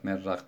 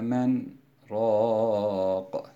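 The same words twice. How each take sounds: First: The two words are merged without a break. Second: A brief break separates the two words. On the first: It means a soup maker. The speaker calls it wrong. "eğer men raq diye idgam yaparsak" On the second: It means who is the healer. The speaker calls it right. "mana değişmesin diye ve qile men raq diye okuyoruz"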